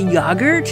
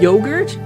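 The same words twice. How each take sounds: First: It is said with a British pronunciation. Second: It is said with an American pronunciation. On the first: "Do British people say yogurt" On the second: "instead of yogurt"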